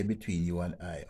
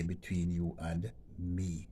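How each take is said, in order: First: Said in the usual way. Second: Slow, careful reading of "Between you and me"; slower correct version. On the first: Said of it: "you never say". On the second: Shown as a demonstration. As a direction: model the correct form slowly. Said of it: "Always say".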